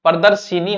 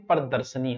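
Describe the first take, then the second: First: प्रदर्शिनी said with a long शि; wrong form shown. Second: प्रदर्शनी said with a plain श, no i; correct form. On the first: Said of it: "प्रदर्शनी होता है". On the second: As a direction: say प्रदर्शनी with a short शन. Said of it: "प्रदर्शिनी होता है". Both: Shown as a demonstration.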